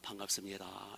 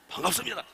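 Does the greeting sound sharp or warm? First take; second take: warm; sharp. First: The greeting is said softly and warmly. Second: The greeting is said sharply and pointedly. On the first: The greeting embraces the other person with love. The speaker calls it right. "사랑의 마음을 해가지고 끌어안는 마음으로" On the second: The greeting hurts the other person. The speaker calls it wrong. "옆으로 막 찔러"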